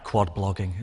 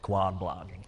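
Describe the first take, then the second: First: It is said in a northern English accent. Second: It is said in an American accent. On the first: The speaker calls it wrong. "where I am" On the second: The speaker calls it right. "Sounds better in an American accent"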